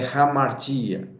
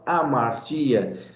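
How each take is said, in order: First: The word begins with a breathy H sound. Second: The word begins directly with a vowel sound. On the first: The speaker calls it right. "a pronúncia correta do grego é hamartia" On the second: The speaker calls it wrong. "Alguns falam amartia"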